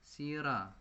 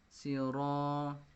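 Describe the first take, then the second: First: The r is pronounced light and thin. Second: The r is pronounced heavy and thick. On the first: The speaker calls it wrong. "Jangan dibaca sira" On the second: The speaker calls it right. "dibaca sira tafkhim, tebal ya"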